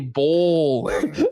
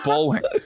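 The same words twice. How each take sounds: First: The first vowel sounds like the word bowl. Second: The first vowel sounds like the word bull. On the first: The speaker calls it right. "actually say bowling" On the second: The speaker calls it wrong. "people in the Midwest, they are incapable of that"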